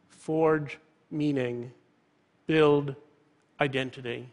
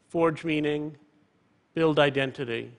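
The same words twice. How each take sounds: First: FORGE, MEANING, BUILD, IDENTITY each set apart by pauses; slow down and weigh each word; slow, emphatic motto. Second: Said in the usual way. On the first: Real, not acted. Closing motto repeated slowly for emphasis.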